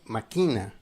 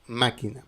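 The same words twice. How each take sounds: First: The stress is not on the first syllable. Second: The stress is on the first syllable. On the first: Someone plots or plans something. "si tu n'as pas la- l'accent, la, tilde, la prononciation c'est máquina" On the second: A machine. "tu vas faire l'intonation dans la syllabe où se trouve le tilde"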